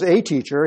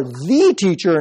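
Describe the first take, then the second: First: "a" said as a full "ay"; stress on "a". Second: "the" stretched as an emphatic "thee"; stress on "the". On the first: Shown as a demonstration. Preacher contrasting titles for a teacher, stressed "a". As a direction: set "a" apart as merely one of many. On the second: Acted. Jesus challenging Nicodemus as Israel's foremost teacher, stressed "the". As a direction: hit "the" to mean the one and only. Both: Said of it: "not just a teacher".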